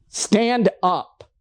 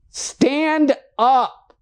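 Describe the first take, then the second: First: Said in the usual way. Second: Insist, raise it on the repeat; insistent call. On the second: Acted. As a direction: Stand up pitched higher and pushed harder.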